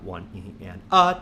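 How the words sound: The stress falls on the word a. "The next bar will be on the uh"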